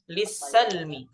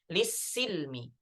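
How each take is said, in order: First: The vowel after the s is 'a'. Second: The vowel after the s is 'i'. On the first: This is the reading of one transmission line. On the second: This is the reading of another transmission line.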